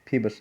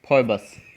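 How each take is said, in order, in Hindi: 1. पहला अक्षर 'फी' जैसा सुनाई देता है। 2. पहला अक्षर 'फॉय' जैसा सुनाई देता है। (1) "तो इसको बोलेंगे फीबस।" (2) "फॉयबस क्या बोलेंगे"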